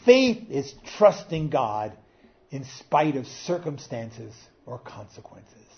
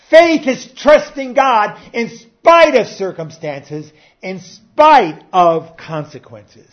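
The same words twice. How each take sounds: First: Said in the usual way. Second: Slow, loud, much higher repeat; preacher driving the quote home; emphatic preaching. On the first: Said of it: "He said". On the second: Acted. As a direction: pound out every word.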